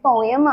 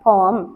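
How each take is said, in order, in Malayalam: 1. ഈ വാക്ക് രണ്ട് അക്ഷരമായാണ് പറയുന്നത്. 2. ഈ വാക്ക് ഒരു അക്ഷരമായാണ് പറയുന്നത്. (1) "നിങ്ങളൊക്കെ കേട്ടിട്ടുള്ളത് പോയം" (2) "ശരിക്കും അതിന്റെ ഉച്ചാരണം പോം ആണ്"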